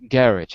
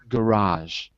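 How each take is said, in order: First: It is said with a British pronunciation. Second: It is said with an American pronunciation. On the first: "In British English" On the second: "In American English"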